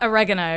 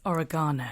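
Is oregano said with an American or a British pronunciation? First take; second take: American; British. First: It is said with an American pronunciation. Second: It is said with a British pronunciation. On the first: The speaker calls it wrong. "not oregano" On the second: The speaker calls it right. "it's oregano"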